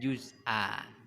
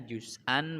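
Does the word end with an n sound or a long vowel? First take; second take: long vowel; n sound. First: The word ends with a lengthened a vowel. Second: The word ends with an n sound. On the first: The reader stops at this word. "karena ada tanda wakofnya kita baca juz'a" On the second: The reading continues without a stop.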